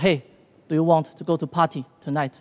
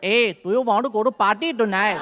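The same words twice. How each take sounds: First: It is spoken in a neutral, unmarked accent. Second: It is spoken in an imitated Indian accent. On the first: "当然他不是这么说的" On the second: "他说的是"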